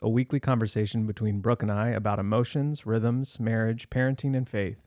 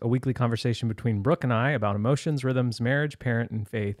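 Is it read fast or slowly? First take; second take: slowly; fast. First: It is read at a slower pace. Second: It is read at a faster pace.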